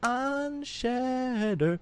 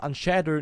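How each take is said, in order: First: The word is said with strong energetic emphasis. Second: The word is said flat and plain. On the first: The speaker calls it right. "sondern dieses Unshatter" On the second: The speaker calls it wrong. "nicht normal langweilig"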